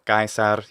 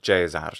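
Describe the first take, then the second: First: It uses the restored classical Latin pronunciation. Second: It uses the typical ecclesiastical Latin pronunciation. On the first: "he's using the restored classical pronunciation of Latin" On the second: "he's not saying Caesar, which would be typical"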